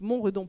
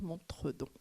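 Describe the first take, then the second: First: The name is said as Mont plus Redon. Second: The name is said as Mon plus tredon. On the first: The speaker calls it right. "on est bien sur Montredon, je le dis" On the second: The speaker calls it wrong. "on ne dit pas Montredon"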